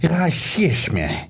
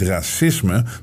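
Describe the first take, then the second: First: The middle consonant is an sh sound. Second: The middle consonant is a plain s sound. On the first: The speaker calls it wrong. "die spreken het uit met de SJ-klank" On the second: The speaker calls it right. "die zeggen niet racisme"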